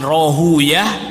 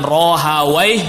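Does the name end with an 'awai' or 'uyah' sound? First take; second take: uyah; awai. First: The name ends with the sound 'uyah'. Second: The name ends with the sound 'awai'. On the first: "ada yang bacanya Ishaq bin Rahuyah" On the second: "ada yang bacanya dengan Rohawai"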